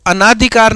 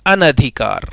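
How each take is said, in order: First: अनाधिकार with a long आ after अन, marked as the mistake; wrong pronunciation. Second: अनधिकार with a short अ after अन, lower and softer; correct pronunciation. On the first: Teacher to students, showing the wrong form अनाधिकार with long आ. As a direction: say अनाधिकार stretching the second vowel to आ, as the error. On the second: Teacher to students, giving the right form अनधिकार with short अ. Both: Shown as a demonstration. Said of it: "अनाधिकार नहीं".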